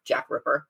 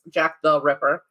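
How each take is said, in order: First: Laughing shorthand. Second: Said in the usual way. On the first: Shown as a demonstration. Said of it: "Let's just shorten it".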